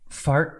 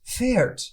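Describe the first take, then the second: First: The vowel is an open 'ah', like 'fart'. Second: The vowel is a fronted 'eh', like 'fair'. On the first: The speaker calls it wrong. "I can't say fart" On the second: The speaker calls it right. "That sounds much better"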